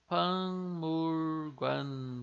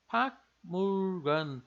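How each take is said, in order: First: The first syllable ends in a nasal ng sound. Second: The first syllable ends in a clipped k sound. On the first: The speaker calls it right. "esse nosso K ele vai ficar com som de N G" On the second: The speaker calls it wrong. "se a gente lê sílaba por sílaba aqui"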